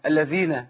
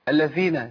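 First: The dh sound is breathy with escaping air. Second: The dh sound is breathy with escaping air.

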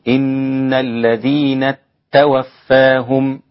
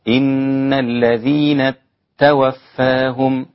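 The two takes are said the same way.

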